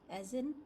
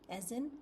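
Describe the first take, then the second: The two takes are said the same way.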